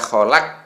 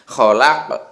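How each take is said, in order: First: The final k has no audible bounce. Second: The final k ends with an audible bounce. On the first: The speaker calls it wrong. "jadi tidak boleh dibaca kholak. Nah, gitu tidak boleh" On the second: The speaker calls it right. "Harus ada ke-nya itu"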